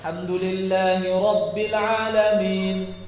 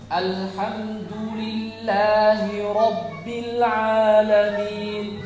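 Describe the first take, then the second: First: The vowels are weak and not fully formed. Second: The vowels are full and clearly formed. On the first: The speaker calls it wrong. "Tidak keluar, jadi malah" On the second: The speaker calls it right.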